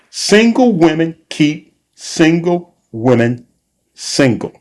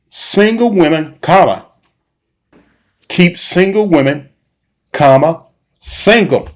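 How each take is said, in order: First: It is said smoothly without pauses. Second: It is said with pauses between phrases.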